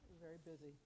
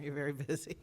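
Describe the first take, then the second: First: It is said quietly. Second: It is said loudly.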